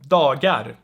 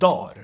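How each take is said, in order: First: The g sound in the middle is heard. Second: The g sound in the middle is dropped. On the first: The speaker calls it wrong. "because no one says that" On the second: The speaker calls it right. "you will most likely hear dar"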